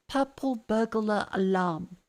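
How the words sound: It is said in a careful presenter voice.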